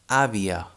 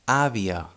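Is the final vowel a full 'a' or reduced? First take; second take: reduced; reduced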